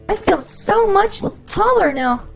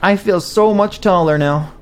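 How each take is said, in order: First: It is said in a put-on girl voice. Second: It is said in a normal voice.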